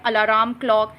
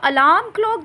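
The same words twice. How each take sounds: First: अलार्म said as "alaram", r sounded; common wrong pronunciation. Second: अलार्म said as "alam", silent r; correct pronunciation. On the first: Teacher imitating how many people wrongly say अलार्म with the r. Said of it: "बहुत सारे लोग इसे अलार्म कहते हैं". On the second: Teacher showing the right way to say अलार्म clock with a silent r. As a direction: say अलार्म with no r sound, "alam klɔk". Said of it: "ये चुपचाप बैठने वाला आर है". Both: Shown as a demonstration.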